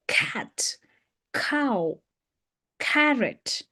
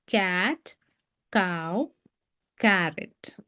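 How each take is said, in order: First: Cat, cow, carrot each opened with a breath of air on k; aspirated k. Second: Cat, cow, carrot with an unaspirated k; lower, softer cat, cow, carrot with no puff on k; flexible Indian k. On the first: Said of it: "So that's k". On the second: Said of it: "we are flexible to teach this as k". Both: Shown as a demonstration.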